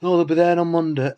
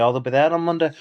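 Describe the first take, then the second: First: Higher, louder mock of the neighbour's "Monday"; mocking her line. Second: Said in the usual way. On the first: Mocking the neighbour's promise to his viewers, higher and louder. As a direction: throw her words back at her, higher.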